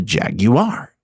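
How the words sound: It is said with a British pronunciation.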